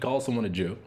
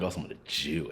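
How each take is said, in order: First: It is said in a plain, neutral tone. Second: It is said in a hostile, contemptuous tone. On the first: It is simply a description of someone. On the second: It is meant as a slur.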